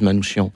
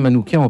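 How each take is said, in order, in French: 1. La consonne avant -ian est un son sh. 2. La consonne avant -ian est un son k. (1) "il a prononcé à plusieurs reprises Manouchian" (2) "moi je dirais Manoukian, parce qu'en fait, en arménien, le C H se prononce K"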